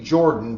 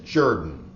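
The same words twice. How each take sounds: First: The name is pronounced the way it is spelled. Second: The name is pronounced unlike its spelling. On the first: The speaker calls it wrong. "It looks like it should be" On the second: The speaker calls it right. "but it is"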